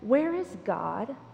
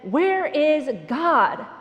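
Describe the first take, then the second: First: It is said calmly, at normal volume. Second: It is said loudly, in a raised voice.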